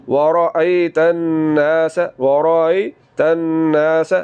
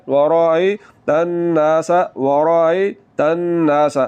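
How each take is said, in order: No difference in how they are said.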